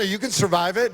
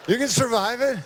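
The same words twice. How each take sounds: First: Said in the usual way. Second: Higher, insistent second take; emphatic repeat. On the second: Real, not acted. Sheriff assuring the crowd they can survive it, emphatic and higher. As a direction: lift it up and drive it home.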